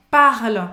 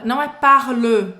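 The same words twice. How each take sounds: First: "Parle" loud, with no final E; correct "Parle", silent E. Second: "parle" with an extra O at the end, said loud; wrong "parle", final vowel said. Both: Shown as a demonstration.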